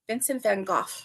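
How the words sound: The name is said the British way.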